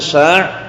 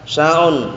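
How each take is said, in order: First: The word ends abruptly with no final vowel. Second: The word ends with an added 'un' syllable. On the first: The speaker calls it right. "Jadi disukun saja" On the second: The speaker calls it wrong. "Jangan dikasih harokat sya'un"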